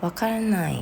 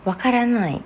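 First: Friendly "I don't get it"; said nicely. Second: Sharp, annoyed and louder; irritated "I don't get it". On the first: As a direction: say it kindly, no edge. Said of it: "ถ้าเกิดพูดดีๆ". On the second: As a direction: snap it out like you're fed up. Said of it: "คำว่าไม่เข้าใจเนี่ย มันก็จะเป็นแบบหงุดหงิด". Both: Shown as a demonstration.

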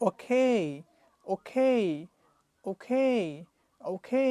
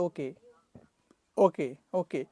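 First: ওকে said as okei with a clear ei glide; ওকে spoken as okei, ending in Bangla এই; okay with ei. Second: ওকে said as oke with a flat e ending; ওকে with a short plain e ending; ওকে said as oke, no ei glide; wrong okay. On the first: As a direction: end ওকে on a long ei. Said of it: "আমরা বলবো". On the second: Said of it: "এটা ওকে না বলে". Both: Shown as a demonstration.

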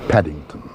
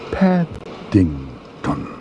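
First: Said in the usual way. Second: Paddington split slowly into Pad, ding, ton; very slow, savoured Paddington in separate beats; syllable by syllable. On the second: Acted. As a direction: stretch Paddington out with gaps between syllables. Bear savours name syllable by syllable.

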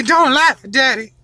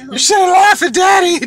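First: Said in the usual way. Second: Mock whine. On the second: Dad scolds laughing kid playfully.

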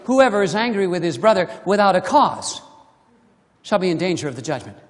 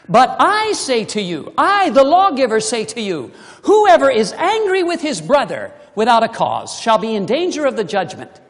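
First: Lower, self-serving read, rushing the end fast; loophole seeker reading. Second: Loud, weighty declaration of the law; solemn proclamation. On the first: Retold or imitated. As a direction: read it as a smug excuse, hurrying through the last part. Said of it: "Some of you might be saying". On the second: Acted. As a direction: proclaim it as the lawgiver himself. Preacher voices Jesus the lawgiver.

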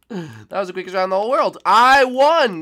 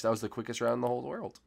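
First: Louder, higher and fast; excited exclamation. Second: Said in the usual way. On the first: Real, not acted. Player announcing the short round result, loud and excited. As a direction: shout the round result in delight.

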